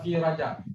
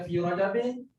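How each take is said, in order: First: The last word ends on a bare consonant. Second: The last word ends with an -in sound. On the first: "jalan selamat" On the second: "tak boleh baca fi rajabin"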